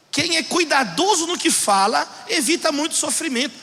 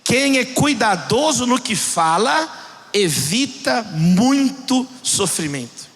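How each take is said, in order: First: Quicker, lighter restatement of the verse; brisker repeat. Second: Measured scripture reading, word by word; solemn slow reading. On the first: Preacher restates the proverb to congregation, brisker. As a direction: run the verse through without dwelling. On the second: Preacher reads Proverbs to congregation, solemn and slow. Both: Real, not acted.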